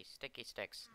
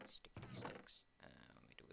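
First: Said in the usual way. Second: Voiceless, playful whispered echo. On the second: Pretend. Player repeating the item's name to themself, whispering. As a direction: whisper the words back to yourself.

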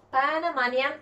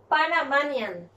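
First: Said in the usual way. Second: Panamanian said slowly, each syllable clear; slow model word. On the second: Shown as a demonstration. Teacher models Panamanian slowly for students, careful pronunciation. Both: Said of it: "que no tenemos también el nian".

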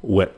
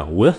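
First: Wit ending on a sharp stopped t, no breath. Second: With ending in a trailing breathy th; airy th ending. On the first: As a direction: wit with the tongue sealing off the air. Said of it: "Cái chữ wit thì nó chặn cái hơi lại". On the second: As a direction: let the air run out after With. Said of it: "phải nghe kỹ hai cái âm này nha". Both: Shown as a demonstration.

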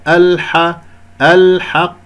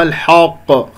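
First: الحق with a thin, open a after h, then heavy q; light haa. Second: الحق with h darkened toward hoq; heavy haa. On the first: Teacher models the correct word, light haa. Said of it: "لا تفخم الحاء". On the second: Teacher shows the error, heavy haa. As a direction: wrongly thicken the vowel in الحق. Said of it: "أو الحق خطأ". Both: Shown as a demonstration.

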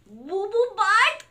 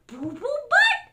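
First: Slow, high, loud BOO BOO BUTT, rising as a question; incredulous repeat. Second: High, loud BOO BOO BUTT swooping up; silly name. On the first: Reader repeats name in disbelief. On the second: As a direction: announce "Boo Boo Butt" goofily. Book gives hippo silly name. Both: Acted.

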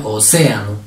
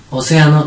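First: "Océano" split before a drawn CÉ; stress on -cé-. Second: Said in the usual way. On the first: Shown as a demonstration. Teacher shows where the accent falls, stressing -cé- in "Océano". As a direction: say O, then lean on CÉ in "Océano". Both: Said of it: "¿Cómo sería?".

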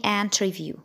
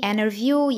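First: "interview" with T sounded; British INTERVIEW. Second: "interview" with T dropped; American INTERVIEW. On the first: Teacher offering British option, full-T pronunciation. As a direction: clear "in-ter-view". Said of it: "يا إما بريطاني". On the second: Teacher offering American option, silent-T pronunciation. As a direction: say "interview" as "innerview". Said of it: "يا إما أمريكاني". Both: Shown as a demonstration.

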